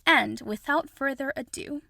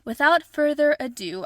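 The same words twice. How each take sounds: First: Said in the usual way. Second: "Without further ado" said again louder and higher, announcing; host restarts the phrase with a flourish; bold restart. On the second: Shown as a demonstration. Host restarts her big reveal with a louder "Without further ado". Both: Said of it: "I think that's the correct word".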